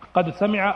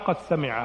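First: The d is pronounced clearly before the s. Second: The d is assimilated into the following s. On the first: "الأولى بالفك للإظهار" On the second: "والثانية بالإدغام"

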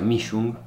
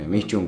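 First: The name has its original German pronunciation. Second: The name has a simplified Spanish-style pronunciation. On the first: This is the proper pronunciation of the surname. The speaker calls it right. "El apellido se pronuncia Mischung" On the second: This is the easier form that others understand. The speaker calls it wrong. "yo siempre lo pronuncié mal... porque si no nadie me entiende"

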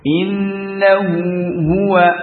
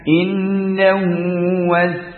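First: Both h sounds are pronounced clearly and separately. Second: The two h sounds are merged into one. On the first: The speaker calls it right. "maka izharkan, jangan diseret" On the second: The speaker calls it wrong. "jangan innahu was"

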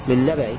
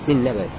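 First: The word ends in a faint, eased sound. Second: The word ends in a faint, eased sound.

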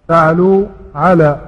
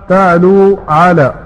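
No difference in how they are said.

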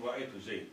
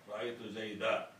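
First: The name ends in a consonant with no vowel. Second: The name ends with a long 'a' sound. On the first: This is the pause form used in the Rabi'a dialect. "لكن عند ربيعة يقول" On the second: This is the pause form used outside the Rabi'a dialect. "هو غير ربيعة يكون بالألف"

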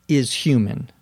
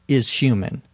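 No difference in how they are said.

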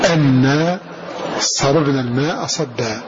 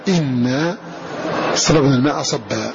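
First: The first word begins with an 'a' vowel. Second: The first word begins with an 'i' vowel. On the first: "بفتح هذه الهمزة" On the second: "وقرأ غيرهم بكسرها"

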